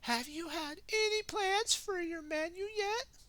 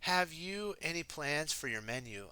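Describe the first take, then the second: First: It is said in Minnie's character voice. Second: It is said in a normal reading voice.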